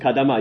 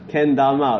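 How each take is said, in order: First: The first syllable is said as 'ka' without n. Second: The first syllable is said as 'ken' with n. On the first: The speaker calls it wrong. "sorry, wrong generation" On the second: The speaker calls it right. "Then why is pronounced as Ken?"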